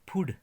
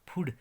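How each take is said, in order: The two takes are said the same way.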